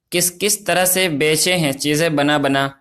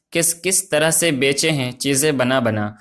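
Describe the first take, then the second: No difference in how they are said.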